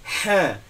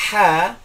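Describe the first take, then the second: First: "ha" as a light Indonesian h with no throat friction; wrong plain ha. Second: "ha" breathy from a narrowed throat, louder; correct Arabic ha. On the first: Teacher shows the wrong Indonesian ha, light h. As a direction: show the mistake students must avoid. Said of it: "tidak boleh kita baca ha". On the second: Teacher shows students the correct ha, breathy throat. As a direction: model the right throaty ha. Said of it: "Jadi ketika kita mengucapkan". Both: Shown as a demonstration.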